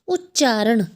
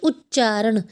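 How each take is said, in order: The two takes are said the same way.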